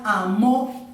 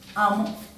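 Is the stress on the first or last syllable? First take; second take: last; first. First: The stress is on the last syllable. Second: The stress is on the first syllable. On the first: The action already happened in the past. "es con tilde. Es un pasado" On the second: The action happens in the present. "lo pongo sin tilde"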